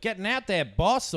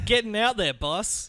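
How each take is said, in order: First: High mock Aussie accent. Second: Put-on Aussie accent. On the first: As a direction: put on a broad Aussie twang. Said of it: "Aussie accents". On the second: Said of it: "Classic Aussie phrase".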